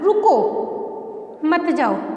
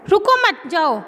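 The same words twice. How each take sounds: First: The pause comes right after रुको. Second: The pause comes right after मत.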